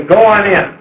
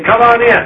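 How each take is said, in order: First: A shade higher call that sends them on, go on in; sending call. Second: Lifted, friendly call through the door, come on in; inviting call. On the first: Host outside the house sends the visitor in, a lightly raised call. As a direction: direct them inside from out in the yard. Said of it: "You don't say". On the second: Host inside the house calls the visitor in, lifted and friendly. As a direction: invite them in from the doorway. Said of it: "you say". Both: Shown as a demonstration.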